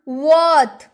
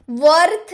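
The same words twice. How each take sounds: First: वर्थ said as wot, no r sound; वर्थ with the r dropped, short o; silent r. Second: वर्थ with a clear rolled r, marked wrong; वर्थ spoken with the r, the way not to say it; wrong r sounded. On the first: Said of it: "र silent". (वर्थ बिना र की आवाज़ के, वॉथ जैसा) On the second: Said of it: "वर्थ नहीं". (वर्थ में र बोलकर, गलत उच्चारण) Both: Shown as a demonstration.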